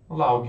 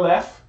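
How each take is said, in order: First: It is read letter by letter, ending in G. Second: It is said the English way, ending in F. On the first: It is a spelling memory aid. "ficaria em português Laug" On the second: It is the real pronunciation. "o som é laugh"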